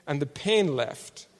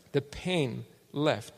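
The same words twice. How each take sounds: First: Slowed down, weighty; slow emphasis. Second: Drawn-out, softer repeat; very slow emphasis. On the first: Preacher stressing the healing, slow and weighty. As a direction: let each word land. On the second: Preacher repeating the healing, very slow and soft. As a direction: stretch it out softly. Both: Real, not acted.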